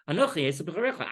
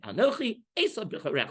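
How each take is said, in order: First: The break comes after the second word. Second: A questioning break comes after the first word. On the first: The speaker claims to be the firstborn brother. "that's not the simple reading" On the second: The speaker asks about himself, then names the brother as firstborn. "that's the way Chazal wanted to say"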